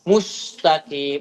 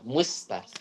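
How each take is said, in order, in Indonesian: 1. Bunyi s itu berat dan tebal. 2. Bunyi s itu ringan dan tipis.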